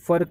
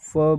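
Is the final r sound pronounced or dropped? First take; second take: pronounced; dropped. First: The final r sound is pronounced. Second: The final r sound is dropped. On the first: The speaker calls it wrong. "फर नहीं बोलते, रे बिल्कुल प्रनाउंस नहीं किया जाएगा" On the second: The speaker calls it right. "फर को फ बोलेंगे"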